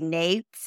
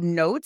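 First: The word is said with a regional twang. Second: The word is said with a neutral vowel.

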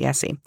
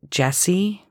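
First: The name is said with an Italian-style pronunciation. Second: The name is said with an English-style pronunciation. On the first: The speaker calls it right. "I try and call it Jesi" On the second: The speaker calls it wrong. "I called it Jesse"

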